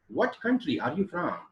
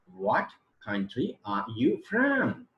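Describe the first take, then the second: First: Said in the usual way. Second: Drawn out word by word, raised; slow demonstration reading. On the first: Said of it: "is the sentence transcription". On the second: Shown as a demonstration. Teacher reading the example question for students, slowly spelled out. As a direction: read the question out slowly, stretching each word. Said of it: "is the question".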